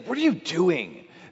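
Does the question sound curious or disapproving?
disapproving. It sounds judgmental and disapproving. The asker already dislikes what is being done. The speaker calls it wrong. "we shouldn't say, ... That doesn't fit with God"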